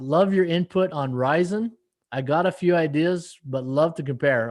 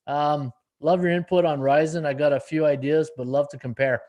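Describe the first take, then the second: First: Puzzled re-read. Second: Said in the usual way. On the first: Retold or imitated. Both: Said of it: "what do you mean by that?".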